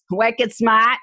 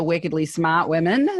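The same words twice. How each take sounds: First: Laughing wicked smart, Boston style; New England accent. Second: Wickedly smart in a New England accent, r dropped in smart. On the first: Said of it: "our New England accent". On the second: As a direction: drop the r, New England style. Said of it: "I'm using our New England accent there". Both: Shown as a demonstration.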